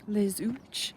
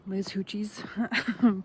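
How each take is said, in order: First: The name ends on a single final syllable. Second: The name ends with an extra final syllable. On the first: The speaker calls it right. "I'm in Les Hooch" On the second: The speaker calls it wrong. "not Les Hoochies"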